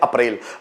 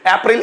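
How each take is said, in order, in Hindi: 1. यह हिंदी उच्चारण से बोला गया है। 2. यह अंग्रेज़ी उच्चारण से बोला गया है। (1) "जब हिंदी की बात करते हैं तो हम बोलते हैं अप्रैल" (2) "अप्रैल इंग्लिश प्रोनाउंसिएशन है"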